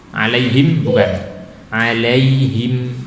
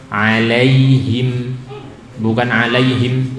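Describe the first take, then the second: The two takes are said the same way.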